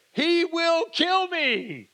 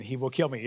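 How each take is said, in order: First: High, slow, hammed-up terrified whine; playfully mocking his fear. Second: Said lower with a smile, "He will kill me." in an amused tone; mock-smiling line. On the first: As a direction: wail it like a scared servant. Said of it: "he's obviously afraid". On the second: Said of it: "I'm smiling, saying".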